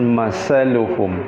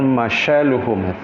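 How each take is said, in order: First: The middle consonant is an 's' sound. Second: The middle consonant is an 'sh' sound. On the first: "bukan masaluhum" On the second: "bukan masyaluhum"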